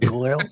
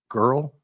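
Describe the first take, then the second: First: The vowel sounds like 'oi', an imitated accent. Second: The vowel sounds like a plain standard 'er'. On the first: It mimics how a character talks. "That's how he says girl" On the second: It is the ordinary way to say it. "not girl"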